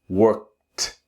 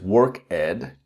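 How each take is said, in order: First: The ending is said with a T sound. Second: The ending is said with a D sound. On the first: The speaker calls it right. "add the T sound" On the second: The speaker calls it wrong. "If your pronunciation is work ed, then you need to debug your pronunciation"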